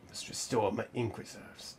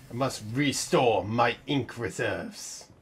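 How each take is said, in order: First: Said in the usual way. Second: Mock robotic voice. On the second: Imitating a game character line.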